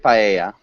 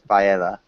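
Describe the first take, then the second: First: The double L has its Spanish sound. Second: The double L is said as an English L. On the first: The speaker calls it right. "the double L sound in Spanish" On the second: The speaker calls it wrong. "instead of"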